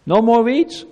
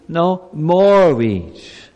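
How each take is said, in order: First: "No more weeds?" rising, as if none are left; questioning no more weeds. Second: "No, more weeds." very slow, pause after No, "more" stressed and falling; slow answer, more weeds. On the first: Pastor teasing children with the hopeful reading, questioning. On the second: Pastor correcting the children with the slow answer. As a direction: drag out "No, more weeds." with weight on "more". Pastor contrasts two readings. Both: Shown as a demonstration.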